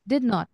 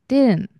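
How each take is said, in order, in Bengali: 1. দুটো শব্দই পুরোপুরি বলা হয়। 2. শব্দ দুটো মিশে গিয়ে একটা হয়ে যায়।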